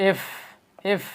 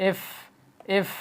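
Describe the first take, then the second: Both takes have the same delivery.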